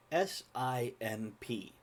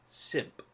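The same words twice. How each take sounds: First: Slow letter-by-letter spelling. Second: Whispered word simp. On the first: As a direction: spell it out slowly. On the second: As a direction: breathe the word simp unvoiced. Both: Shown as a demonstration. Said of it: "the word".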